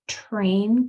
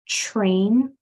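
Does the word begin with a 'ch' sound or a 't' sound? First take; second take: t; ch. First: It begins with a clean 't-r' sound. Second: It begins with a 'ch-r' sound. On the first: The speaker calls it right. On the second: The speaker calls it wrong.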